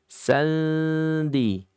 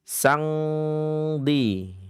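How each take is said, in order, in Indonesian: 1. Bunyi sengaunya hampir seperti n, tapi tersembunyi. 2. Bunyi sengaunya dibuat di pangkal lidah, ng. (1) "hampir n tapi belum n" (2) "ikhfa ab'ad"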